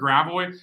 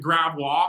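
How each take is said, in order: First: The name is said in an anglicized way. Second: The name is said in a French-style way. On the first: This is how local people actually say it. The speaker calls it wrong. "everybody calls it gravois" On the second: This is how the name is supposed to sound. The speaker calls it right. "it's supposed to be a gravois"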